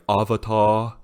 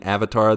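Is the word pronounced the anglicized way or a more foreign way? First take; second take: foreign; anglicized. First: It is pronounced a more foreign, Japanese-style way. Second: It is pronounced the usual anglicized way. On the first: This is how the live adaptation said it. "they were like Avatar" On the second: This is the familiar way of saying it. "instead of saying Avatar"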